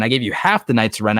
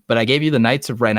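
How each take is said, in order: First: The word half leaned on as the correction; half stressed to correct the line. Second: Said in the usual way. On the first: Real, not acted. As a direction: fix the claim by punching half.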